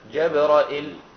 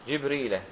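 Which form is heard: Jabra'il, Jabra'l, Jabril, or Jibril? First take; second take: Jabra'l; Jibril. First: Open a vowels, then a hamza with no long i. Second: Both first syllables have i; there is no hamza. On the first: "بفتح الجيم والراء وهمزة مكسورة وبعدها لا مباشرة من غير ياء" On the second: "فبكسر الجيم وبكسر الراء"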